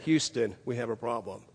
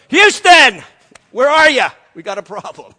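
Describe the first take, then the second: First: Much softer, unruffled report; calm. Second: Loud, higher mock panic shout that drops off at the end; panicked yell. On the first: Retold or imitated. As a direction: report the disaster coolly, almost murmured. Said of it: "can remain so calm". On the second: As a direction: yell for help, then sag. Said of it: "I'd have gone".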